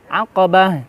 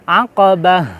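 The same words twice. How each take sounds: Both takes have the same delivery.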